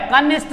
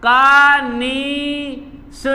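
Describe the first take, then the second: First: कनिष्ठ ending in an unaspirated T; wrong form. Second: कानिष्ठ very slowly, "kaa-nee-shTHa"; correct form. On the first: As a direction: say कनिष्ठ briskly as "kanisht". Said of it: "कनिष्ठ नहीं होता है". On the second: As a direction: spell out कानिष्ठ by syllable, breathed TH at the end. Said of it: "कनिष्ठ होता है ठा". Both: Shown as a demonstration.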